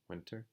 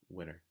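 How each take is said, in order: First: The T is pronounced clearly and strongly. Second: The T disappears after the N. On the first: "You don't really hear so much people saying winter" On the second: "but you hear more often people saying winter"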